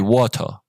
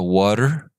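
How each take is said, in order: First: It is said in a British accent. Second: It is said in an American accent. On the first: "when you hear the uh, British pronunciation" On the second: "That is how it sounds for the American accent"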